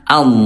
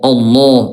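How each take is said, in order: First: The first vowel is thin, a smiling a. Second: The first vowel is thick, leaning toward o. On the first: The speaker calls it right. "bukan o, ya tapi a, ya senyumin aja" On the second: The speaker calls it wrong. "suka menebal jadi kayak ke o"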